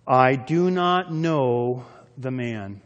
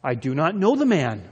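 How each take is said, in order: First: Very slow, emphatic oath; cursing, sworn denial. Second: Mildly emphatic oath of denial; sworn denial. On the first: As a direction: stretch each word out as you swear it. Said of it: "began to invoke a curse on himself and to swear". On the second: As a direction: deny it firmly, as if under oath. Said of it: "denied it with an oath". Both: Acted.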